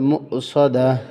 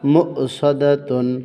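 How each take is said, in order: First: The word ends with a plain '-a' sound. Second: The word ends with a '-tun' sound. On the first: The reader stops at this word. "এখানে থামতে যদি অক্ষ করেন তাহলে উচ্চারণ হবে মু সদা" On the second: The reading continues without a stop. "তার দুই পেশ তুন"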